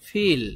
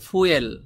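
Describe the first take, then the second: First: It sounds like the word feel. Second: It sounds like the word fuel. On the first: The speaker calls it right. "এই শব্দটির সঠিক উচ্চারণ হবে ফিল" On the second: The speaker calls it wrong. "ফুয়েল বললে আপনার ওদের উচ্চারণের সাথে মিলবে না"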